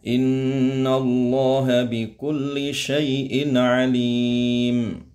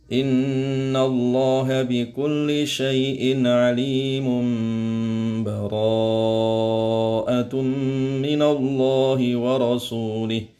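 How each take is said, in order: First: It stops and takes a breath before continuing. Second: It runs straight on with no stop. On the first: "diwakafkan misalkan berhenti" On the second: "Yang ketiga diwasolkan ya"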